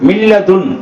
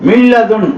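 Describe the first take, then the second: The two takes are said the same way.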